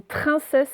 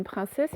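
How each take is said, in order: First: "trincesse" starting with "tr" instead of "pr"; "trincesse" with stressed "train" first syllable; wrong first consonant. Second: "princesse" starting with "pr"; "princesse" as the correction, softer; correct first consonant. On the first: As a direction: hit the mistaken "tr" in "trincesse". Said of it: "c'est une princesse". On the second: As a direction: say "princesse" with "pr", not "tr". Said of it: "ce n'est pas une trincesse". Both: Shown as a demonstration.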